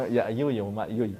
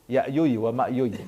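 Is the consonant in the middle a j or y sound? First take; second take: y; y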